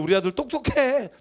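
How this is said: It is said in an angry, irritated tone. The speaker is angry at the child. "화를 내면서"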